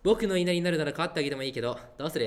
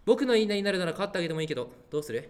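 First: It is said plainly, without a breezy tone. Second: It is said in a breezy, refreshing tone.

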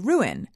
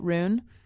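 First: The word is said as two syllables. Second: The word is squeezed into one syllable. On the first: "this is two syllables to say" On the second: "I thought it was just one syllable"

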